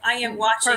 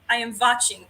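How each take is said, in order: First: It is said in a plain, unaccented way. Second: It is said with a Russian-style accent.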